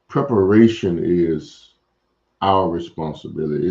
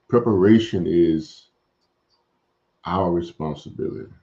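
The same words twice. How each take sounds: First: It is said at a normal pace. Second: It is said a little more slowly.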